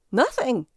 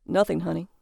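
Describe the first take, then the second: First: Squeaked. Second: Said in the usual way. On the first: A narrator's reading. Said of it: "he squeaked". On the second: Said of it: "retrieved his man's voice".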